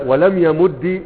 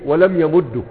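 First: ولم يمد with final -di, yamuddi; teacher ends يمد on a clear i vowel, yamuddi; kasra ending. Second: ولم يمد with final -du, yamuddu; teacher ends يمد on a clear u vowel, yamuddu; damma ending. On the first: Teacher showing students the kasra variant, yamuddi. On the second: Teacher showing students the damma variant, yamuddu. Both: Shown as a demonstration. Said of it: "بعضهم يجيز أن يقول".

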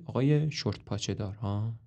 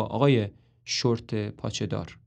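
First: Softer, unimpressed repeat; sour echo. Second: Said in the usual way. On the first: Acted. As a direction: mutter it back dryly. مروین دوباره میگه.

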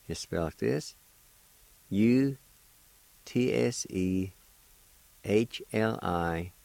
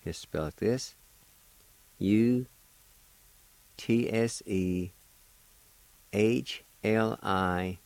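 Both takes have the same delivery.

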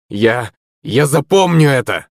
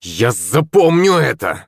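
First: Slow, stumbling threat, the word запомню stressed; stammered threat. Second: Slow, drawn-out threat with a stress on запомню; threatening yell. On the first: Beaten schoolboy stammers a threat at the girl, slow. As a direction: sputter the vow out as he backs off. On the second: Humiliated schoolboy yells a threat at the girl, slow and menacing. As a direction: hurl it back as a vow of revenge. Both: A narrator's reading. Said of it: "закричал Шепелев".

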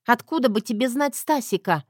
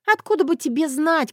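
First: Challenging Zoya. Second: Angry Zoya. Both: Acted.

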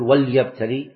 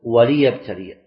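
First: وليبتلي said wal-yabtali, lam without a vowel; wrong reading. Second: وليبتلي said wa-li-yabtaliya, lam with a kasra; correct reading. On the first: Teacher showing students the wrong way, lam silenced in وليبتلي. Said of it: "ما تقول". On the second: Teacher showing students the right way, kasra on the lam of وليبتلي. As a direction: give the lam in وليبتلي a clear i vowel. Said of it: "بل تقول". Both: Shown as a demonstration.

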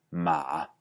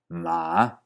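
First: Ma low and falling, with no rise at the end; third tone without rise. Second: Ma dipping low and then rising back; third tone. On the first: Teacher showing the third tone without its final rise. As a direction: let ma sink low and stay there. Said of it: "sin una subida clara al final". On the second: Teacher demonstrating the dipping third tone. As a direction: dip ma down, then bring it back up. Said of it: "empezar medio bajo, bajar más y volver a subir". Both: Shown as a demonstration.

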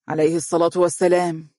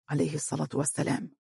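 First: Said in the usual way. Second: Murmured blessing, much softer and quicker; muttering. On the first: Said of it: "قال والدها على الفور". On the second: A narrator's reading. Bilal echoing the blessing after the father, muttered. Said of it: "تمتم بلال".

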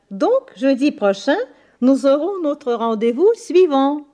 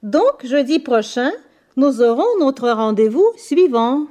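Both takes have the same delivery.

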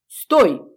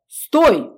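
First: Sharp loud order; commanding shout. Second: High, loud frantic yell; crowd shout. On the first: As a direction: command it to halt. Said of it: "велела я". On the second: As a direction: yell it in panic. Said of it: "вторили переживающие ... торговцы". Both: Acted.

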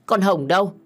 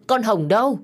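First: Louder call from outside, rising. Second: Higher, louder repeat of the call; louder shout. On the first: Phương calls for Hồng from outside, louder. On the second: Phương shouts again for Hồng, higher and louder. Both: A narrator's reading. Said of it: "vừa đi vừa hét".

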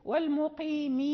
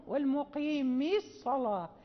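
First: "والمقيم" ending on a long i; ya kept at the stop. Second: "والمقيم الصلاة" run together with no long i; ya dropped in connected reading. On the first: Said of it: "حين نقف". (الوقف على "والمقيم" بإثبات الياء) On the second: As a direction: join "والمقيم" to "الصلاة" without the ya. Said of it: "حين نقرأ". ("والمقيم الصلاة" في الوصل بدون ياء) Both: Shown as a demonstration.

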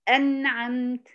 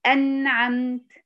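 First: أنعمت said again slowly, nun sukun kept clean; slow repeat. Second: أنعمت drawn out very slowly with a clear still nun; slow demo. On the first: Teacher repeating أنعمت slowly for the student to copy. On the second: Teacher modelling أنعمت slowly for a Quran student. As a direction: stretch أنعمت, resting on the nun. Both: Shown as a demonstration. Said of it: "فتلاقينا نقول إيه؟".

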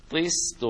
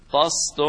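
First: "طست" said with an i after the ط; careful dictionary-style "طست" with an i vowel; vowel with kasra. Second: "طست" said with an open a after the ط; careful dictionary-style "طست" with an a vowel; vowel with fatha. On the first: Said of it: "بالكسر". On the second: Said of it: "بكسر الطاء وبفتحها". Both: Shown as a demonstration.

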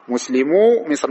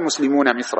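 First: مسلمو مصر said slowly as muslimu misr, nun dropped; correct construct form. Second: مسلمون مصر said muslimuna misr, final nun kept; wrong form keeping the nun. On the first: Teacher giving the right plural construct, slow and clear. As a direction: model answer drawn out, مسلمو ending on long u. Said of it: "أو مثلًا". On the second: Teacher showing the form students must not say, nun kept. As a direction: show the error, مسلمون with its nun before مصر. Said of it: "ما تقول". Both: Shown as a demonstration.

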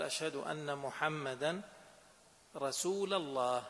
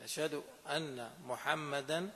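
First: "محمدا" ending in a clear -a, slow and deliberate; wrong case ending. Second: Slow "محمدا" ending in -a, with a rise and no close; wrong case ending. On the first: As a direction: slowly stress the wrong accusative "محمدا". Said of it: "اختلف المعنى فعلًا". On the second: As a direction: let "محمدا" hang with a rising -a, slowly. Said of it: "الجملة لم تكتمل". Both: Shown as a demonstration.

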